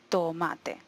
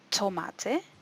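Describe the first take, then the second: First: The t is released without any puff of air. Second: The t is released with a puff of air. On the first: The speaker calls it right. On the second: The speaker calls it wrong.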